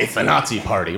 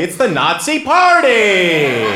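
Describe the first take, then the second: First: Nazi stressed, party dropped low. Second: Party stretched long and high; stress on party. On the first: Comic showing the American emphasis, stress on Nazi. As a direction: lean on "Nazi" and let "party" fall away. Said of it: "put the emphasis on the first word". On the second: Comic showing the supposed German emphasis, stress on party. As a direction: belt out "party" like a celebration. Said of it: "they put the emphasis on the second word". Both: Shown as a demonstration.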